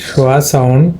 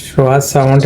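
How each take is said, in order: No difference in how they are said.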